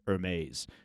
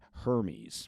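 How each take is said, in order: First: Hermes is said in a posh, French-style way. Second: Hermes is said in a plain, everyday way. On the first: "how I pronounced Hermes ... it shows you that I'm posh" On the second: "and not Hermes"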